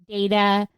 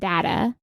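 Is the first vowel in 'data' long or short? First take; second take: long; short. First: The first vowel is a long A sound. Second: The first vowel is a short A sound. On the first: "data with the lawn A" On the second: "data with the short A"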